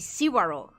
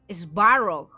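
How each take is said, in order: First: A short vowel separates the S from the V. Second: The S and V are said together, no vowel. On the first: The speaker calls it wrong. "I was going to pronounce the C like C. Like Sivarog" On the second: The speaker calls it right. "But I suppose that's the right way to pronounce"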